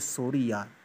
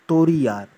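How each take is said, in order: First: The first word begins with an s sound. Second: The first word begins with a t sound. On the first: "इसी तरह हम कहते हैं" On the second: "जो तुतलाकर बोलेगा वो क्या कहेगा? वो कहेगा"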